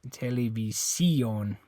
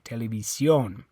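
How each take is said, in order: First: The stress is on the fourth syllable. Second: The stress is on the last syllable. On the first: The speaker calls it wrong. "And it's not this I. You don't say televi televisión" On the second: The speaker calls it right. "It's on the O"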